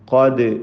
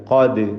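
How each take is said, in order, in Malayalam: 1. ഈ സ്വരം വ്യക്തമായ തുറന്ന a ആണ്. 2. ഈ സ്വരം വ്യക്തമായ തുറന്ന a ആണ്.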